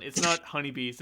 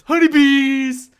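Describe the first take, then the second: First: Said in the usual way. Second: HONEYBEES yelled high, loud and drawn out; over-the-top high yell on "honeybees"; shouting like a moron. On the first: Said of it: "can't say the name without fucking shouting it". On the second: Shown as a demonstration. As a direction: shout "honeybees" slowly at full volume. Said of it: "shouting it like a moron".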